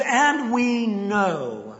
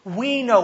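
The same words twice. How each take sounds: First: Each word drawn out slowly and deliberately; "And we know" spoken very slowly, leaning on "And"; a weighty scripture reading; slow, emphatic quote. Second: Said in the usual way. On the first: Shown as a demonstration. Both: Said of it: "He says".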